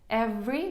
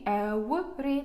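First: The v sound is made with teeth on the lower lip. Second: The v sound is made with rounded lips, like w. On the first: The speaker calls it right. "Зверніть увагу, every" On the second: The speaker calls it wrong. "не every"

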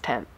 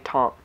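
First: The word sounds like 'tan', with a nasal vowel. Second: The word sounds like 'taunt', ending in a t. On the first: The speaker calls it right. "Lisa Eldridge obviously says it right. I think she says 10" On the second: The speaker calls it wrong. "I always say taunt. I know I say it wrong"

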